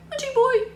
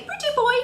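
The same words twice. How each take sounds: First: Squawky high parrot copy; high parrot echo; parrot imitation. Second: Put-on high sing-song pretty boy; high coaxing pretty boy; parrot-talk phrase. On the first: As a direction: mimic a parrot repeating. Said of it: "it'll go". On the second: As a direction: say it like teaching a parrot. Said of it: "if you say".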